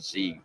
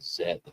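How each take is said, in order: First: The letter is said the non-Canadian way. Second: The letter is said the Canadian way. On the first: The speaker calls it wrong. "in Canada we don't say Z" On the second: The speaker calls it right. "we say Z"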